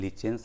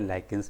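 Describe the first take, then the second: First: The middle consonant is a 'ch' sound. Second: The middle consonant is a 'k' sound.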